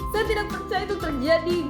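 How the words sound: Light, up-and-down pitch that sounds happy. "senang. Nada ringan atau naik turun"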